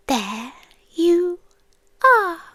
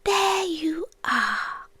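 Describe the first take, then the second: First: Rising emotional recognition. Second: Very slow, hushed recognition; fond quiet recognition. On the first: Creature greeting the human tonight, rising moved voice. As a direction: let it swell up on are. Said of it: "The same thing I said when I saw you tonight". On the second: Creature recalling first seeing the human, slow soft recognition. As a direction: let it out slowly, as if finally found. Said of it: "I thought". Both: Retold or imitated.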